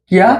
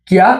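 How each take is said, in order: The two takes are said the same way.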